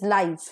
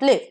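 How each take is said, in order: First: It is pronounced as the adjective form. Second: It is pronounced as the verb form. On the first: It describes something living or happening in real time. The speaker calls it right. "as an adjective or as an adverb, it should be pronounced as live" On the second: It is the verb. The speaker calls it wrong. "and not live"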